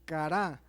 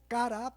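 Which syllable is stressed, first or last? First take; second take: last; first. First: The stress is on the last syllable. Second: The stress is on the first syllable. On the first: "pero con acento en la A" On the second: "como cara"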